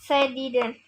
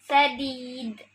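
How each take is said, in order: First: The word ends with a full vowel sound. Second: The word ends on a silenced final consonant. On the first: The reading continues without stopping. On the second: The reader stops at the end of the verse.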